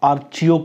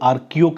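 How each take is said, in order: First: The middle consonant is a 'ch' sound. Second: The middle consonant is a 'k' sound. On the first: "आर्चियो कह दो" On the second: "आर्कियो कह दो"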